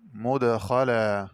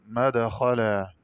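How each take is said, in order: First: مدخلا as "mudkhalaa"; slow مدخلا opening on mu; mim with damma. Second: مدخلا as "madkhalaa"; slow مدخلا opening on ma; open mim. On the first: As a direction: round the first vowel of مدخلا to u. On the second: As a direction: open the first vowel of مدخلا to a. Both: Shown as a demonstration. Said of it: "قرأ بفتح الميم".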